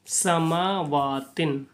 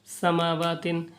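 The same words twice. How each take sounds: First: "समावातिन" with long drawn-out vowels; measured, lingering "समावातिन"; slow elongated recitation. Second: "समावातिन" read straight through, shorter vowels; fluent reading. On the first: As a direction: stretch "समावातिन" slowly, syllable by syllable. Joined word recited after spelling it. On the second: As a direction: run "समावातिन" together as one flowing word. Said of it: "इसको रहमानी भी पढ़ने की कोशिश". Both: Shown as a demonstration.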